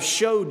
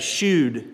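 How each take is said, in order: First: The vowel sounds like the one in 'show'. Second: The vowel sounds like the one in 'shoe'.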